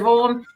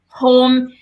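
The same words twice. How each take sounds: First: It is said in a broad Welsh accent. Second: It is said in a neutral, posher accent. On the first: It is the speaker's natural home way of talking. "instead of home" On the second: It is the adjusted way of talking used at work. "and home instead"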